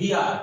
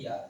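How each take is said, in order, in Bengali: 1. শব্দটা 'h' ধ্বনি দিয়ে শুরু হয়। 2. শব্দটা সরাসরি একটা স্বরধ্বনি দিয়ে শুরু হয়। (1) "হওয়ার কথা ছিল হিয়ার" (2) "কিন্তু হইছে ইয়ার"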